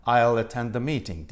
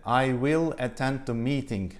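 First: "I'll attend the meeting" run together, "I'll" contracted and flowing into the rest; fluent contracted native-style English; linked native speech. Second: "I will attend the meeting" said slowly with every word separate, "will" clearly pronounced; careful written-style English, each word apart. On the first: Teacher showing students how natives blend the words, smooth and linked. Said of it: "Dolayısıyla nasıl söyler?". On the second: Teacher showing students the stiff written form, slow and word by word. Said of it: "yazı dilinde". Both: Shown as a demonstration.

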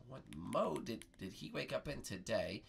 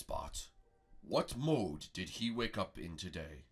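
First: Pondering echo. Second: Low, deliberate master; slow translated question. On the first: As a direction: repeat the question haltingly, thinking. Bart repeats the question pondering. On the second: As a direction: pose it gravely, word by word. Prego translates dragon's question. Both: Pretend.

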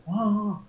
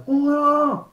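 First: Softer, drawn-out echo of the exclamation; mirrored "uah". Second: High, drawn-out wail of emotion; client's acted "uah". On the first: Acted. Coach matching the client's emotion, soft "uah". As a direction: echo the wail more gently. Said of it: "Estoy igualando la emoción". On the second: Client venting emotion to the coach, high exclamation. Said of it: "Él hace".

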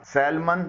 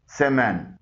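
First: सैलमन with the L sounded; wrong pronunciation. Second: सेमन with silent L, "SEM-un"; correct pronunciation. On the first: Teacher showing learners the mistake, सैलमन with sounded L. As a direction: say सैलमन as SAL-mun, L heard. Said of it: "कुछ हजरात सैलमन बोलते हैं". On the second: Teacher modelling for learners, सेमन without the L. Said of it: "इसका सही pronunciation है". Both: Shown as a demonstration.

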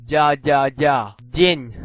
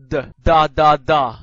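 First: Ya said "dya" with slight friction; soft D. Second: Plain hard d in da, da, da. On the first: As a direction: drill ya and yen as a palatalized d, loudly. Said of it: "軟音y，有少少摩擦嘅". (軟音d，帶少少摩擦讀ya) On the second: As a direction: drill da slowly and loudly, no glide. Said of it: "硬音d". (硬音d，慢慢大聲讀da) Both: Shown as a demonstration.

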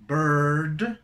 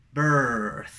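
First: Loud, rising "Bird" ending in d; contrast drill. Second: Loud, falling "birth" ending in th; contrast drill. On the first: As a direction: punch "Bird" up to its d. ("Bird" fuerte, con D final) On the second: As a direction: punch "birth", let the th trail. ("birth" fuerte, con th final) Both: Shown as a demonstration. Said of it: "esa sería la diferencia".

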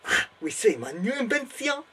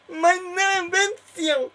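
First: Hammed-up German accent, calling out the invention; German inventor presenting his machine with pride; German professor announcing. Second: Put-on much higher, slow, overjoyed German accent; German professor in raptures. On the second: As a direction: drag out the words in mock ecstasy. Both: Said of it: "I am Professor Von Strakontrek".

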